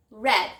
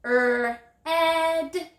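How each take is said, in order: First: Said in the usual way. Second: 'Er, ed' drawn out, stepping up from r to a high held e; stretched word. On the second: Shown as a demonstration. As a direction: stretch red as a long 'Er', then a long 'ed'. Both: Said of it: "Stretch it".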